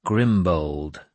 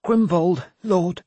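First: Said in the usual way. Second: Put-on high, scared young man's voice; timid, high-pitched reply to a lord; frightened stammered answer. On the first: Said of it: "I repeated the name". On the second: A narrator's reading. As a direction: blurt it out in fear, pitched right up. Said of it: "who stammered the answer".

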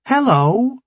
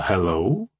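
First: High, bright hello; chirpy young woman. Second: Low, doubtful hello; wary hello. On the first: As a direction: greet them bright and eager. Chirpy scientist greets them. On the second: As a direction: ask it suspiciously. Rambo's wary reply. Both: Acted.

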